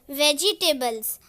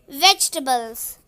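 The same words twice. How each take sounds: First: The middle e is pronounced as a vowel. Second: The middle e is silent and dropped. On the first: The speaker calls it wrong. "Some people pronounce this word as vegetables, but this is wrong" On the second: The speaker calls it right. "The correct pronunciation of this word is vegetables. E is silent"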